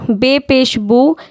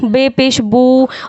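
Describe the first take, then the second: First: The final vowel is kept short. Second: The final vowel is stretched out long. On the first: The speaker calls it right. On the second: The speaker calls it wrong.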